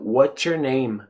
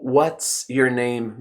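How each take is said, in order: First: It is said fast. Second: It is said slowly.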